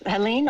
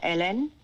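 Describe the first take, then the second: First: The name is pronounced the English way. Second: The name is pronounced the French way. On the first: "Yes, Helene" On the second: "according to our French Canadian uh, friends"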